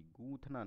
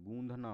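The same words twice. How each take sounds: First: गूंथना with a dental breathy थ in the middle; wrong form. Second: गूंधना with a voiced breathy ध in the middle; correct form. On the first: Teacher giving the incorrect गूंथना, unvoiced थ. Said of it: "गूंथना नहीं होता है". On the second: Teacher giving the correct गूंधना, voiced ध. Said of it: "गूंधना होता है". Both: Shown as a demonstration.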